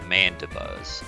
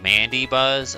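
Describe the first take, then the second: First: The second syllable ends with an 'uh' sound. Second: The second syllable ends with an 'ee' sound. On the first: "I pronounce it Manda Buzz" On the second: "I don't pronounce this Mandy Buzz"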